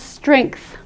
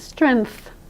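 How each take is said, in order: First: It has an extra sound before the final th. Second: It has no extra sound before the final th. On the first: The speaker calls it right. "That word we pronounce strength" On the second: The speaker calls it wrong. "as though it doesn't have any other sound in it"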